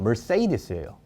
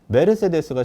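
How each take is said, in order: First: It is said with English sounds, roughly mer-say-dees. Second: It is said with Korean loanword syllables, me-reu-se-de-seu.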